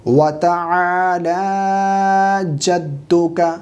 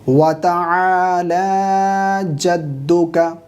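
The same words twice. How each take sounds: No difference in how they are said.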